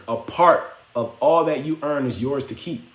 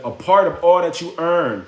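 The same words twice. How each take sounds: First: Said in the usual way. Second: Each word of "A part of all that you earn" spelled out slowly, higher and louder; slow emphatic. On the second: Retold or imitated. The old man drilling the secret into the boy, emphatic.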